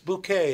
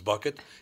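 First: It sounds like 'bouquet', ending in an 'ay' sound. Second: It sounds like 'bucket', stress on the first syllable. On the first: The speaker calls it right. "It's Bouquet, actually" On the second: The speaker calls it wrong. "Mrs. Bucket"

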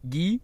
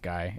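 First: The name is said in a foreign way. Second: The name is said as an English reading. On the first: The speaker calls it right. "It's pronounced Guy or something stupid" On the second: The speaker calls it wrong. "Not pronounced Guy"

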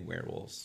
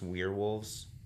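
First: The two parts blend into one quick word. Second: The first part is said as a separate word. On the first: This is an acceptable casual pronunciation. "but you can just say werewolves" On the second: This is the name's official pronunciation. "It's technically pronounced werewolves"

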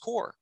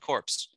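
First: The final p and s sounds are silent. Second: The final p and s sounds are pronounced. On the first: The speaker calls it right. "without the E, it's pronounced core" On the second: The speaker calls it wrong. "Why do you keep saying corpse?"

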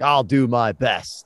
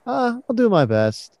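First: It is said as a firm, confident slogan. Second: It is said in an unsure, hesitant tone.

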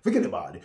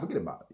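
First: It is said in a forced, overdone way. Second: It is said in a sly, understated way.

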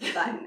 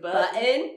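First: It is said in a neutral accent. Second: It is said in a thick Southern accent. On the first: This is how it should be said. The speaker calls it right. "would say the correct pronunciation" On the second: This is how it was said as a child. The speaker calls it wrong. "I guess I said it with a very thick Southern accent"

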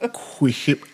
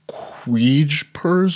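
First: The J sound is left out of the name. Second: The J sound is pronounced in the name.

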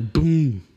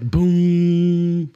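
First: The word is short and cut off. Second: The word is drawn out and rings on. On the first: The drum's resonance is choked off. The speaker calls it right. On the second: The drum resonates for too long. The speaker calls it wrong.

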